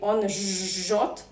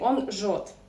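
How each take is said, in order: First: The zh sound is long, doubled. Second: The zh sound is short, single. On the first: The speaker calls it wrong. "We do not say" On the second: The speaker calls it right. "we pronounce it as a normal consonant"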